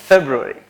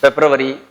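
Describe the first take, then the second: First: February said FEB-roo-ri, short; February modelled right; corrected February; correct pronunciation. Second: February said FEB-ru-ary, full r; February overpronounced wrongly; mock-wrong February; wrong pronunciation. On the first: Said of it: "It's not February". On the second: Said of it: "It's not". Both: Shown as a demonstration.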